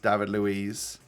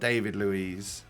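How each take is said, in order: First: The name is said in a Brazilian way. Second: The name is said in a non-Brazilian way. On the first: The speaker calls it right. "he's Brazilian and I would call like" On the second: The speaker calls it wrong.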